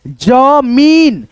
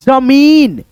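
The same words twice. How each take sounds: First: जमीन with the मी vowel held very long; stretched long ee. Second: Said in the usual way. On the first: Shown as a demonstration. Teacher dictating जमीन to pupils, long ee stretched out. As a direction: draw out जमीन slowly, holding the long ee. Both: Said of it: "उच्चारण खींच करके".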